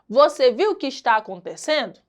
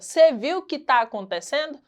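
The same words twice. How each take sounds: First: 'Você' and 'está' are said in full. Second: 'Você' and 'está' are shortened to 'cê' and 'tá'. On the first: This is the formal register. "na linguagem formal" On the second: This is the informal register. "Na linguagem informal. ... O cê, você, o tá, que está"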